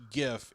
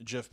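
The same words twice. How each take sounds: First: "gif" with a hard G as in go. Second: "gif" said like jiff; soft G. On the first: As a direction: say "gif" starting like give. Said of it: "it's gif because of the hard G". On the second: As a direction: say "gif" with a J sound. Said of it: "as soft G". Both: Shown as a demonstration.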